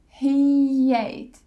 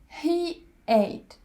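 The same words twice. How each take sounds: First: A y sound links the two words. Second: There is a gap between the two words. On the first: The speaker calls it right. "we put the y sound in the middle" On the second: The speaker calls it wrong. "We don't say it that way. We don't put gaps in the middle"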